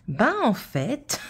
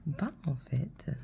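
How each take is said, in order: First: Slow, stretched and higher ben en fait, like starting a tale; drawn-out storyteller opening. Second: Ben, en fait whispered softly, almost breathless; whispered retelling. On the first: Mother imitating daughter starting her tale, slow and drawn out. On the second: Mother mimicking daughter's story, whispered and hushed. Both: Retold or imitated. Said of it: "elle raconte ça comme une histoire".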